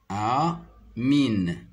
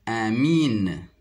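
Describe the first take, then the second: First: "A, mine" broken after the A; syllable by syllable. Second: Said in the usual way. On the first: Shown as a demonstration. Teacher sounding out a word for pupils, syllable by syllable. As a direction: split "A, mine" into two drawn syllables. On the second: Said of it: "le mot amine".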